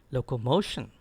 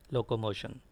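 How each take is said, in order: First: Locomotion with the stress on MO; careful model locomotion, MO stressed; correct stress. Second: Locomotion low and soft, no punch on MO; underplay locomotion, evenly weighted and quiet; offhand, wrong-example locomotion, softer and lower. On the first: Shown as a demonstration. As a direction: lean on MO in locomotion, then drop. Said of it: "It is actually". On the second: Retold or imitated.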